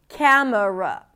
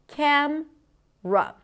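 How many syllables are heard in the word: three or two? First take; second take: three; two. First: It is said with three syllables. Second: It is said with two syllables. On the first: "Camera has three syllables" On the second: "the middle syllable is often deleted, and then we reduce it to just cam, r"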